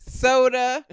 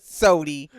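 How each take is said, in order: First: The word ends with an 'uh' sound. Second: The word ends with an 'ee' sound. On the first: It is the speaker's usual way of talking. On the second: It is the Southern way the other person talks.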